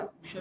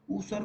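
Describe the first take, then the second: First: ऊसर said with a sh sound for स; Sanskrit pronunciation. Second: Said in the usual way. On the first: Shown as a demonstration. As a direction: say ऊसर as "ooshar", sh in the middle. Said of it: "बंद या ऊसर बोलते हैं". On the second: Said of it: "ऊसर को क्या बोलते हैं".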